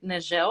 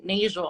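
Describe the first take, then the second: First: "Nagel" as nuh-ZHEL; alternate pronunciation. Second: "Nagel" as NAY-zhul; alternate pronunciation. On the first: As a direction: stress the end of "Nagel", French-style zhel. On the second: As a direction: stress the first syllable of "Nagel", long "ay". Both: Shown as a demonstration. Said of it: "I'm not sure how you pronounce it".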